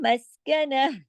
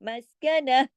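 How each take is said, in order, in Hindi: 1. यह शब्द नरम h की आवाज़ से खत्म होता है। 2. यह शब्द नरम h की आवाज़ से खत्म होता है।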